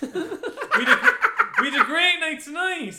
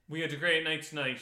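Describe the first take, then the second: First: It is said with lively, excited energy. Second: It is said flatly, ending with a firm stop. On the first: It is written with an exclamation point. "That's the exclamation point" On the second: It is written with a full stop. "Full stop"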